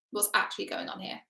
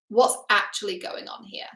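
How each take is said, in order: First: Unvoiced whisper of the question. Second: Said in the usual way. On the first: Shown as a demonstration. Coach whispering the real question Thor never asks, whispered. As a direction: breathe it as a private wonder. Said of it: "repeated as whisper". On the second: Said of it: "repeated unvoiced".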